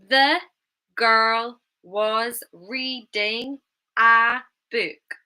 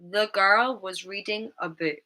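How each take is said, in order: First: Every word is stressed, with full vowels. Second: 'The' and 'a' are reduced to schwa. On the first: The speaker calls it wrong. "with all the words stressed" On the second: The speaker calls it right. "we would use the schwa sound"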